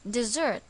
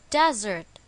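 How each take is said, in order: First: The stress is on the second syllable. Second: The stress is on the first syllable.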